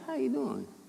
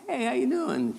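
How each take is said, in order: First: It sounds like a worried, concerned question. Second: It sounds like a casual passing greeting.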